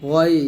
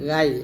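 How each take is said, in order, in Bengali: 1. প্রথম ধ্বনিটি ভারী ও পূর্ণ। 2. প্রথম ধ্বনিটি হালকা ও পাতলা। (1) "মোটা করতে হবে" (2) "গাই বলা যাবে না"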